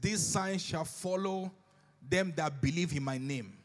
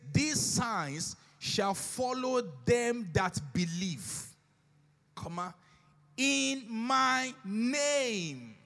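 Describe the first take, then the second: First: It runs on with no pause after believe. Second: There is a pause after believe. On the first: Believers are those who believe in the name. The speaker calls it wrong. "Oftentimes, we read it like this" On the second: The signs are done in the name. The speaker calls it right. "It says, "These signs shall follow them that believe, comma, in my name.""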